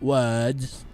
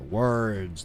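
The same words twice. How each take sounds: First: The R sound in the word is dropped. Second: The R sound in the word is pronounced. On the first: The speaker calls it wrong. "not words" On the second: The speaker calls it right. "Like an American with the R"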